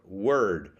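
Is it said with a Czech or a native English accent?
native English. It is said with a native English accent.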